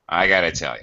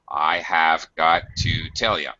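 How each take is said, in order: First: 'Have got to' is squeezed into 'gotta'. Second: Every word of 'have got to' is said fully.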